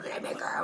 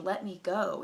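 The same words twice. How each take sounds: First: Growled imitation of someone possessed; mock possessed. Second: Said in the usual way. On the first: Friend contrasting her with the possessed, mock demon growl. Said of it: "She's not". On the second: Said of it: "she seemed like herself".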